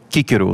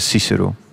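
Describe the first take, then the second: First: The name begins with a k sound. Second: The name begins with an s sound. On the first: This is the speaker's own preferred pronunciation. "Dus ik ben geneigd om het toch Cicero te zeggen" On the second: This is how many other people say it. "Al zullen velen anderen zeggen Cicero"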